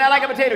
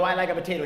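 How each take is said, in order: First: Higher, louder mock insistence; insistent repeat. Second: Said in the usual way. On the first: Diner repeats his order to the waiter, acted loud insistence. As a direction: push the order back at the waiter, raised voice. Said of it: "I kept saying".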